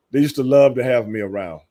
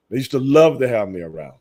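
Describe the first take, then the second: No difference in how they are said.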